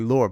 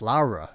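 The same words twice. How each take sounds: First: The name is said with a British pronunciation. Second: The name is said with an Italian pronunciation. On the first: "the British name Laura is definitely Laura" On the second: "Italian name Laura, and it's Laura"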